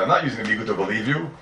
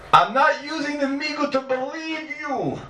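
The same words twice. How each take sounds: First: Said in the usual way. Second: Not held high and drawn out, the whole line slow and higher; slow emphatic denial. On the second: Shown as a demonstration. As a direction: lean on not, slowly, pitched well up.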